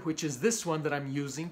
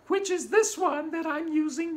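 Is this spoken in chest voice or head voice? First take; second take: chest voice; head voice. First: It is spoken in a low chest voice. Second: It is spoken in a high head voice. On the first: "The chest register, which is this one that I'm using to speak with you now" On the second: "and the head register, which is this one that I'm using now"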